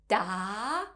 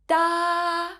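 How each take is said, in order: First: The pitch rises from middle to high. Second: The pitch stays high and level throughout. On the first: "has a rising tone" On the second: "is a high flat tone. It sounds like this"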